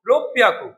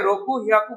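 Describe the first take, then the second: First: The word has a doubled p sound in the middle. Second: The word has a plain h sound in the middle. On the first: The speaker calls it right. "কি বলতে হবে? রূপ পিয়াকু" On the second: The speaker calls it wrong. "রকু হিয়াকু বললে ভুল"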